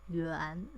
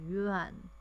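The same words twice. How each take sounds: First: The word is said with a rising tone. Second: The word is said without a rising tone. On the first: "in Chinese, the right pronunciation is yuan second time" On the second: "our monetary unit is yuan"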